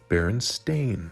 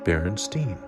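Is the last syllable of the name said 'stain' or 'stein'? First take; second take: stain; stein. First: The last syllable is said like 'stain'. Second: The last syllable is said like 'stein'. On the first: The speaker calls it right. "pronounced accordingly" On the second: The speaker calls it wrong. "those that do also pronounce it Berenstain"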